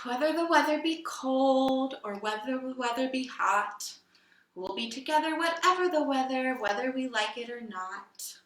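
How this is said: It is said in a sad tone.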